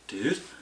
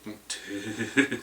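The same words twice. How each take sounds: First: It sounds curious and questioning. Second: It sounds disappointed and reproachful. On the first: The speaker is asking something. "kind of inquisitive, it's like, dude?" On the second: Someone really messed up. "if somebody really messed up, it's like, dude"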